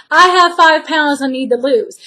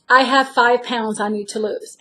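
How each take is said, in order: First: The third time a bit louder and firmer, stressing "five pounds"; firmer repeat. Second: Said in the usual way. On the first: Shown as a demonstration. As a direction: land "I have five pounds" with growing resolve. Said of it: "And then when I hit that five". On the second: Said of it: "I look at".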